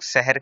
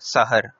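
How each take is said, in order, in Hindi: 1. पहला स्वर छोटा 'a' नहीं है। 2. पहला स्वर स्पष्ट छोटा 'a' है। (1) "इसको अक्सर लोग सहर कहते हैं, जो कि गलत है" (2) "असल लफ्ज़ है सहर"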